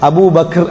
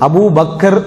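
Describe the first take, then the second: First: The k and final r form a cluster. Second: A vowel is inserted between k and final r. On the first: This is the correct original form. The speaker calls it right. "சரியான உச்சரிப்பு Abu பக்ர், அப்படிதான் சொல்லணும்" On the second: This is the habitual popular form. The speaker calls it wrong. "Abu பக்கர் அப்படி இல்ல"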